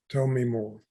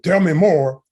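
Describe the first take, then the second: First: It is said in a warm, gentle tone. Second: It is said in a pushy, aggressive tone. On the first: The speaker genuinely wants to hear more. The speaker calls it right. "you say it in a compassionate way" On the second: The speaker is demanding an answer. The speaker calls it wrong. "You don't say, ... you get up in their face"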